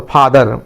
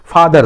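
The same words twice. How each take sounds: First: Said in the usual way. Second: father broken slowly into two beats, फा, then दर; split into syllables. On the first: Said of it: "ये दो syllable हो गया". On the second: Shown as a demonstration. Teacher showing students the two syllables of father, drawn out and split. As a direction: stretch फा, pause, then give दर separately. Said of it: "तो आप बोलते हैं".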